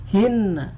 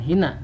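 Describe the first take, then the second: First: The n sound is long and doubled. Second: The n sound is short and single. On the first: The speaker calls it right. "tapi hinna" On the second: The speaker calls it wrong. "bukan hina"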